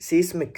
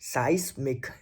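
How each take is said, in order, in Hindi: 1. पहला स्वर 'ee' जैसा सुनाई देता है। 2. पहला स्वर 'eye' जैसा सुनाई देता है।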